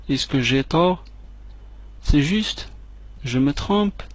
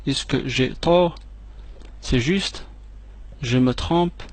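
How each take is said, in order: Both takes have the same delivery.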